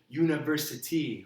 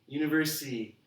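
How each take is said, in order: First: Every syllable is pronounced distinctly and clearly. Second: The ending syllables are slurred and unclear. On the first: The speaker calls it right. "You need to say university" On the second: The speaker calls it wrong. "just kind of mumble the end"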